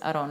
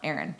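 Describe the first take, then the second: First: It is said with a Spanish pronunciation. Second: It is said with an English pronunciation. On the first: It is the name he grew up with. The speaker calls it right. "that was his name to me, is Aaron" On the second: It is not the name he grew up with. The speaker calls it wrong. "and not Aaron"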